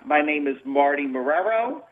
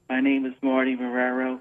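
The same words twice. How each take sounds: First: The voice is clear, full and confident. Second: The voice is small, quiet and timid. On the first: The speaker calls it right. "you should speak very clearly" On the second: The speaker calls it wrong. "You don't want to sound mousy"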